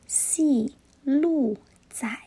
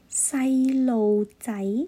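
First: It is pronounced with Mandarin sounds and tones. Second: It is pronounced with Cantonese sounds and tones. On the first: "在普通话里面就叫细路仔" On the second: "粤语就是细路仔"

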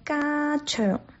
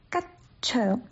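First: The first syllable ends open on 'a'. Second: The first syllable ends in a stopped 't'. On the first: The speaker calls it wrong. "很多人说嘎强，那就少了at 音，而且气流没有截住" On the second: The speaker calls it right. "发完音之后要收住气流"

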